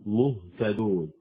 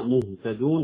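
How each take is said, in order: First: Slow مهتدون with a vowelless, unrounded ه; careful model of sukun on the ه in مهتدون; correct still ha. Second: مهتدون with the ه coloured by an u; faulty مهتدون as if ه had a damma; wrong rounded ha. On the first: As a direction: recite مهتدون slowly, breathing out a clean ه. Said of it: "الإسكان". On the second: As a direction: mispronounce مهتدون, lips rounded through the ه. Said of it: "كأنها مضمومة". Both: Shown as a demonstration.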